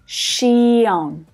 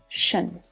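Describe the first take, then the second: First: The ending is split into two full syllables. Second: The ending is one short, low, reduced syllable. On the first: The speaker calls it wrong. "This is not to be pronounced shion" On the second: The speaker calls it right. "the final syllable reduces down to become a schwa"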